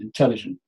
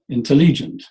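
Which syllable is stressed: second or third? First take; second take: second; third. First: The stress is on the second syllable. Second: The stress is on the third syllable. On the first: The speaker calls it right. "it's on the second one" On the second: The speaker calls it wrong. "Let's put it on the third and see what happens"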